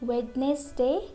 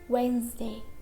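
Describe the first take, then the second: First: The D sound is pronounced before the N. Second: The D sound is left out entirely. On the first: The speaker calls it wrong. "We don't say Wednesday, it's wrong" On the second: The speaker calls it right. "letter D is silent before letter N"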